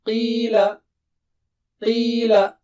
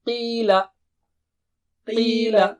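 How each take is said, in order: No difference in how they are said.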